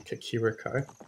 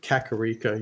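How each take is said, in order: First: The second syllable has an 'i' vowel. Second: The second syllable has an 'a' vowel.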